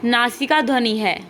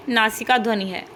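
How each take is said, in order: Both takes have the same delivery.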